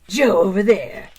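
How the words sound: It is said in a movie-trailer voice.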